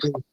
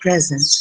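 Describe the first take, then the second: First: It is pronounced the verb way. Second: It is pronounced the noun way. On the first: It names the act of showing something. "or a word is a verb, like to present" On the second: It names a gift. "pronounced differently depending on whether the word is a noun, like a present"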